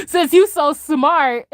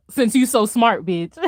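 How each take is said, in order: First: High, slow, cracking up mid-line; laughing through it. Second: Lightly voiced menacing Thanos; deadpan threat, barely put on; mock Thanos threat. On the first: Retold or imitated. Streamer repeating Thanos's threat to chat, laughing. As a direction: repeat the threat while giggling. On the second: Streamer voicing Thanos threatening her, a light mock menace.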